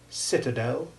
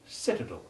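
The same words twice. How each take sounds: First: The last syllable carries a light secondary stress. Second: The last syllable carries no stress at all. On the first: "there is a secondary stress on the final syllable too" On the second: "without any stress on the last syllable"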